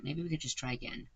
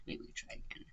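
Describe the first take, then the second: First: Said in the usual way. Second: A soft unvoiced repeat, half to himself; whispered aside. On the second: Real, not acted. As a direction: whisper it under your breath to yourself.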